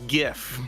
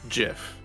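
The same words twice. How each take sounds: First: It begins with a hard G sound. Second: It begins with a soft J sound. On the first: It matches the word graphics. "Because the G is short for graphics, which has a G sound" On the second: It follows the inventor's wish. "the most most correct way to say it is GIF, because the person who invented the GIF said it should be pronounced that way"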